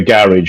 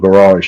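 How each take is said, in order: First: The word is said the British way. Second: The word is said the American way.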